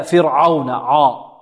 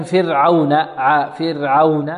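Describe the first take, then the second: First: فرعون slowly with a thick, dark عا; heavy ayn. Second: فرعون slowly with a light ع and rounded waw; correct light ayn. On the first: Teacher showing the contrast for students, heavy ayn. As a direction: make the عا of فرعون full and heavy. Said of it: "فهذا تفخيم". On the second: Teacher models the sound pronunciation, correct light ayn. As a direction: keep the ع of فرعون thin, then round aw. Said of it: "الصحيح للواو والعين". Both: Shown as a demonstration.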